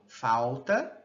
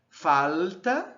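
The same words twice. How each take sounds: First: The l becomes a w-like glide. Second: The l is a dark velar l. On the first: "a lateral pode se realizar como uma semivogal" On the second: "como uma velar"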